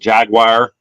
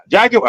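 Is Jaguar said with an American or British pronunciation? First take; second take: American; British. First: It is said with an American pronunciation. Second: It is said with a British pronunciation. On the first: The speaker calls it wrong. "I'm American. I thought it was Jaguar" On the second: The speaker calls it right. "English gentleman ... he kept saying Jaguar"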